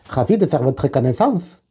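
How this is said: It is said in a put-on Southern accent.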